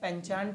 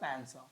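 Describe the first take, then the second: First: It has a ch sound and a final t. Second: It has an s sound and no final t. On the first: The speaker calls it wrong. "पेंचांट नहीं है जी" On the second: The speaker calls it right. "ये पैंसॉ है, इसका उच्चारण अजीब सा है"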